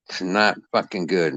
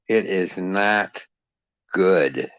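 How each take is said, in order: First: Said in the usual way. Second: "It is not good" very slow, each word weighted; slow emphatic. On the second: Shown as a demonstration. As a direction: spell out "not good" slowly.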